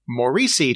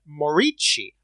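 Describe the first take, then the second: First: The name is said with an American pronunciation. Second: The name is said with an Italian 'chi' sound. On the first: The speaker calls it wrong. "assumed the other way" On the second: The speaker calls it right. "It is Chi"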